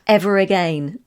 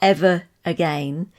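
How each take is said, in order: First: The words are joined with a linking r sound. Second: The words are said separately with no linking. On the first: "like ever again" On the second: "not ever again"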